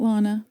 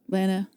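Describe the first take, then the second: First: The first vowel differs from the vowel in banana. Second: The first vowel matches the vowel in banana. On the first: The speaker calls it wrong. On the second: The speaker calls it right. "Lana Banana. So you say it right"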